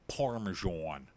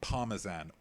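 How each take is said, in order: First: It is said in an American accent. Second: It is said in a British accent.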